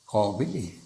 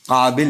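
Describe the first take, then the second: First: The a-vowel is rounded toward o, Iranian style. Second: The a-vowel is plain, South Asian style.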